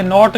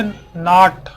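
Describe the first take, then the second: First: नोट said with an "o" vowel, the wrong way; wrong "note". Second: नाट with a long open "aa" vowel; correct "naat". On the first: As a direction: say नोट like the word "note", as the mistake. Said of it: "ये नोट नहीं पढ़ा जाएगा". (नोट को ग़लत "ओ" के साथ बोलिए) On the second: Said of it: "इसको हम पढ़ेंगे नाट". (नाट को लंबे "आ" के साथ सही बोलिए) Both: Shown as a demonstration.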